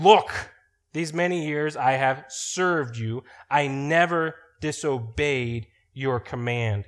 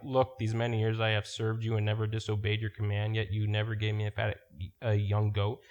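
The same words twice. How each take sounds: First: Angry son. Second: Said in the usual way. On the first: Shown as a demonstration. Older son snapping at his father over the party, angry. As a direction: bark out Look and drag the rest with grievance. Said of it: "He is mad at his father". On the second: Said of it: "we can easily read these verses ... and just go over them like".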